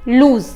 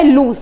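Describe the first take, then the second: First: लूज said with a buzzing z at the end, like जॉ in जहाज; lose with a z. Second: लूज said with a hissing s at the end, like सॉ in संतरा; loose with an s. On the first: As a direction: end लूज on a voiced z sound. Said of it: "जहाज वाला जॉ". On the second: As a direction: end लूज on a sharp s sound. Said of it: "जैसे संतरा वाला सॉ". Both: Shown as a demonstration.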